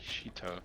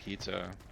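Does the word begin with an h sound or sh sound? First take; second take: sh sound; h sound. First: The word begins with a breathy sh sound. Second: The word begins with a plain h sound.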